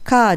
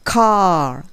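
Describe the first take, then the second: First: It is said with Japanese katakana-style sounds. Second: It is said with English-style sounds. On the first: The speaker calls it wrong. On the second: The speaker calls it right.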